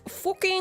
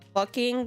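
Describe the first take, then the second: First: It is said with a Dutch accent. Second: It is said with a standard English accent. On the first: This is how Dutch speakers say it. "They say, like, uh, fucking" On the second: This is not how Dutch speakers say it. "they don't say, like, fucking"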